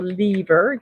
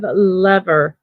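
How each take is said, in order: First: "lever" with a long e, as LEE-ver; first syllable of "lever" like "lee"; long-e pronunciation. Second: "lever" with a short e, rhyming with "never"; first syllable of "lever" like "lev"; short-e pronunciation. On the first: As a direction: say "lever" to rhyme with "beaver". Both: Shown as a demonstration. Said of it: "depending on how, uh, you pronounce it".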